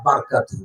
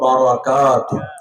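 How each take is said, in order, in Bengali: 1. র উচ্চারিত হয় কোনো পরের স্বরধ্বনি ছাড়া। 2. র-এর পরে ছোট 'a' স্বরধ্বনি থাকে। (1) "অধিকাংশ হেফজখানার ছেলেরা বারকাতুহু বলে" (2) "রর উপরে জবর দিয়ে পড়তে হবে"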